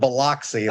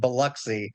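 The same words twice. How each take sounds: First: It is said the way outsiders pronounce it. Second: It is said the way locals pronounce it. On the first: The speaker calls it wrong. "not Biloxi, like outsiders tend to do" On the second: The speaker calls it right. "it is pronounced Biloxi"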